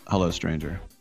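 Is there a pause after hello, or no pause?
no pause. It is said straight through, without a pause.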